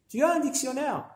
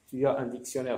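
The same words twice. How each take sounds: First: The voice rises at the end. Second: The voice falls at the end. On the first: It asks a question. "là, ça devient une question" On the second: It states a fact. "c'est une phrase déclarative"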